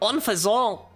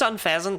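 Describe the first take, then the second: First: The ending does not sound like pheasant. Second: The ending sounds like the word pheasant. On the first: "but Unfazant!" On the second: "it's just Unpheasant because it's an unpleasant pheasant"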